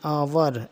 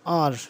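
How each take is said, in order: First: It is said as two syllables, ow-er. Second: It is said as one syllable, ar. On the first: "लोगों को इस बात का बिल्कुल भी नहीं पता और वो आवर पढ़ते हैं" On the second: "इसमें ओ यू साइलेंट है तो इसको आर पढ़ेंगे"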